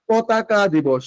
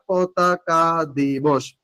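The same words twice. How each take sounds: First: Said in the usual way. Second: "পতাকা দিবস" stretched out very slowly; slow dictation. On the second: Shown as a demonstration. Teacher asking what the day is called, slow emphatic dictation. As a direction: draw out each syllable to drill it in. Just কি এটা?.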